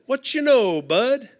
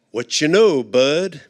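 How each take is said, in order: First: Higher, cheery buddy greeting; friendly Bud greeting. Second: Slap-on-the-back hello, low; friendly Bud greeting. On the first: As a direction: sing out the hello to a lady. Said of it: "lady or gentleman". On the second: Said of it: "he called Bud". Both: Retold or imitated.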